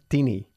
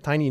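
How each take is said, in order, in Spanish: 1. Tiene una pronunciación de estilo español. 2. Tiene la pronunciación estándar del inglés. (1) "no tiny. ... mucha gente lo dice así. Muchos españoles. Pero es incorrecto" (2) "Se pronuncia tiny"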